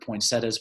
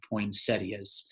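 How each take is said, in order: First: It uses the regional Southern pronunciation. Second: It uses the classic standard pronunciation. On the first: This is how people say it locally. "the South Georgia Enemy wants to keep it poinsettias" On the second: This is the traditional way to say it. "more classically said poinsettias"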